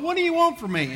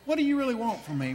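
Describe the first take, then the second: First: It is said in an upset, sarcastic way. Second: It is said in a sincere, serious way.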